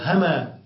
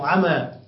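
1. تبدأ الكلمة بصوت الهاء. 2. تبدأ الكلمة بصوت العين. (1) "تبدل همزتها هاء" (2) "أو عينا"

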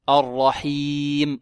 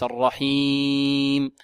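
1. تُقال الكلمة بدون رنين أنفي. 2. تُقال الكلمة بصوت أنفي. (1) "الرحيم وليس" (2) "صوت من الأنف"

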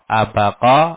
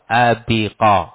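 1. Vokal setelah b adalah 'a'. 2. Vokal setelah b adalah 'i'. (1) "Bisa dibaca fathah ba'nya" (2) "atau kasroh"

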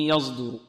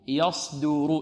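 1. صوت الراء ضعيف، يكاد يختفي. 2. صوت الراء واضح وثقيل. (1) "وهذا خطأ في رواية إمام قلو" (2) "والراء مفخمة"

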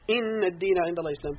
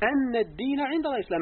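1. تبدأ الكلمة الأولى بحركة 'i'. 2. تبدأ الكلمة الأولى بحركة 'a'. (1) "بكسر الهمزة فالكلام مستأنف" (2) "وقرئ بالفتح"

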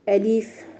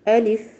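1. تُمَطّ الحركة وتطول. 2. تُضغط الهمزة، والحركة قصيرة. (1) "نحقق الكسر فنمط الحركة، نقول ألف خطأ" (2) "نعمل ضغطة شوية على الهمزة"

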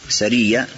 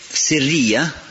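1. Первый гласный — звук 'a'. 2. Первый гласный — звук 'i'. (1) "сиррия если через фатху" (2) "тогда сир, то есть связано с сердцем"

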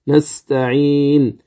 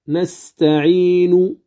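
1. ينتهي الحرف الأخير بلا حركة إطلاقًا. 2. تُنطق الحركة الأخيرة كاملة عند الوقف. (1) "نقف بالسكون. إذن نستعين هكذا نستعين" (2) "لو وقفت عليها كاملة أقول نستعين"

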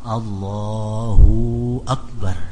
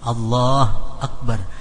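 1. Suku kata 'hu' dipanjangkan menjadi vokal panjang. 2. Suku kata 'hu' dihilangkan sama sekali. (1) "ruhunya kepanjangan" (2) "hu nya itu apa?"

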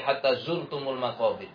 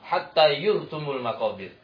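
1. Kata kedua dimulai dengan bunyi z. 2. Kata kedua dimulai dengan bunyi y. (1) "mereka tidak mampu membaca" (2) "Zanya dengan ya"

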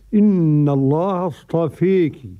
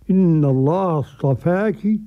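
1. الحركة الأخيرة تميل بشدة نحو 'ee'. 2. الحركة الأخيرة فتحة مفتوحة خالصة 'a'. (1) "بالإمالة الكبرى" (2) "قرأ ورش بالفتح"

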